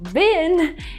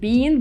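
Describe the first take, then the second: First: The vowel is short, like in 'bin'. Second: The vowel is long, like in 'bean'. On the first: "is the American one" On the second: "Because in British English, people would say bean"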